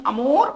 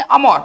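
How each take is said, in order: First: अमूर with a long oo, the French way; French amour, अमूर with an oo sound; French pronunciation. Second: Amor as written, अमोर with a plain o sound; अमोर said the English way, with an o; spelling pronunciation. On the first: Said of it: "French word होने के नाते इसको हम लोग इस तरह से पढ़ेंगे". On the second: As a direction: read अमोर just as it is spelt. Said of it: "लिखेंगे अमोर". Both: Shown as a demonstration.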